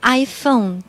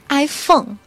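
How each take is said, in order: First: The vowel in phone glides like 'oh'. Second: The vowel in phone sounds like Chinese 'feng'. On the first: The speaker calls it right. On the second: The speaker calls it wrong.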